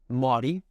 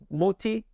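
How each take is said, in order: First: The middle consonant is a soft D sound. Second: The middle consonant is a hard T sound. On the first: The speaker calls it wrong. "I've heard plenty of people say like Maudie" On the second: The speaker calls it right. "The T's got to be T's, not D's"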